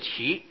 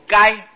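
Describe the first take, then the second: First: The word is pronounced qi. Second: The word is pronounced gai. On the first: It means the stalks left after harvesting beans. The speaker calls it right. "这里应当念作萁" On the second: It names an animal. The speaker calls it wrong. "还有一个字音叫念作该"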